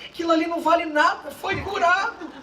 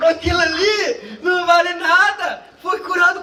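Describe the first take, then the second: First: Lightly voiced resentful complaint, higher, laughing; mock indignant remark. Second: Louder, higher, laughing through the complaint; laughing mock outrage. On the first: Pastor's jealous churchgoer complaining someone was healed, mild mock indignation. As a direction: grumble it half-laughing. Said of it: "Ele falou assim". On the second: Preacher repeating the jealous churchgoer's complaint, laughing loud outrage. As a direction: spit it out laughing in disbelief.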